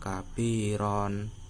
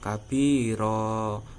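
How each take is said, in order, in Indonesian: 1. Kata ini berakhir pada bunyi n. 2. Kata ini berakhir pada vokal yang dipanjangkan. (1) "bukan kabiron" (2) "yaitu dengan membaca kabiro"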